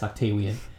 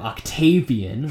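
First: The consonant after 'Octa' is a W sound. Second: The consonant after 'Octa' is a V sound. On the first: "what sounds like he has a lisp" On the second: "this very strong, you know, powerful sounding name"

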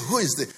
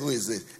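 First: It is asked with excited amazement. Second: It is asked as a plain, neutral question.

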